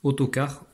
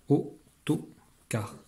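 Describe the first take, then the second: First: Said in the usual way. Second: "autocar" very slowly, au, to, car with gaps; split into syllables. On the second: Shown as a demonstration. Teacher cutting the word into syllables, slow and separate. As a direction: break "autocar" into three separate beats. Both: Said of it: "les syllabes sont les morceaux de mots".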